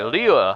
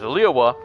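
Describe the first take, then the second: First: The Y sound in the second syllable is weak. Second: The Y sound in the second syllable is strong. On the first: "like Liyue without the strong Y to it" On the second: "that woman down there is pronouncing it as Liyue"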